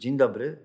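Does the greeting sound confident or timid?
timid. The greeting sounds muffled, timid and withdrawn. The speaker lacks self-confidence and is withdrawing. The speaker calls it wrong. "skrzyżuj ręce, schyl głowę, powiedz dzień dobry. Jak to brzmi?"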